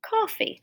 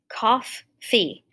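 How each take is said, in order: First: It is said smoothly with a single f. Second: It is split in two with a doubled f. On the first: The speaker calls it right. "Yeah, that sounds better" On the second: The speaker calls it wrong. "I think I don't say two F's in there"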